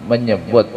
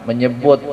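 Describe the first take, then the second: No difference in how they are said.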